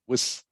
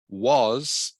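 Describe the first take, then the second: First: The word has a short, weak vowel. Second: The word has a full, clear vowel.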